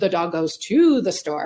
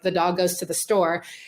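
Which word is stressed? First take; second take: to; none. First: The word to is stressed. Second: The word to is not stressed.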